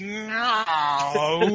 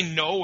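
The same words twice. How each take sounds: First: No stretched very slowly through every vowel like an Australian; drawn-out Aussie no. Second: Said in the usual way. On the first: Shown as a demonstration. Showing how Australians say no, slow drawn vowels. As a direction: drag no out over several vowels. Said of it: "they always go through every vowel when they say something". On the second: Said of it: "we say no".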